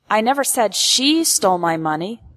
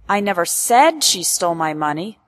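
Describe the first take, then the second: First: The stress falls on the word she. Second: The stress falls on the word said. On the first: This person is not the one being accused. "implies that I am not accusing" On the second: It was thought or implied, not spoken. "implies that I never said it out loud, but perhaps I thought, implied"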